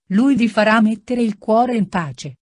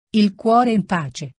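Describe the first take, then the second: First: Said in the usual way. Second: Slow, scornful repeat of "Il cuore in pace"; bitter echo. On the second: Acted. Renzo mocking Lucia's words, slow and bitter. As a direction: throw her phrase back at her, drawn out. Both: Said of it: "questa parolaccia".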